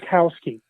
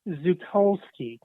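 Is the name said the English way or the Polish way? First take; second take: English; Polish. First: The name is said with American-style pronunciation. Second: The name is said with Polish-style pronunciation. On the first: This is how the name is usually said. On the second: This is how a speaker from Poland says it. "she pronounced my name differently. um, I think it was Zukowski"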